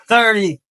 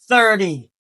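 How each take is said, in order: Both takes have the same delivery.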